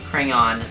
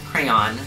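First: It has two syllables, ending like dawn. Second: It has one syllable, rhyming with man. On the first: "With two syllables, where the second syllable rhymes with dawn" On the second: "One syllable, rhymes with man"

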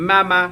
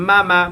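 No difference in how they are said.

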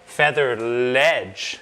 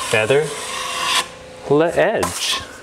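First: It is said fast, syllables run together. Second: It is said slowly, syllables apart.

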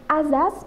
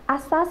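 First: The word is pronounced with z sounds. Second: The word is pronounced with s sounds. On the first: The speaker calls it wrong. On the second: The speaker calls it right.

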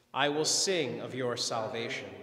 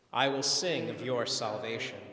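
Both takes have the same delivery.

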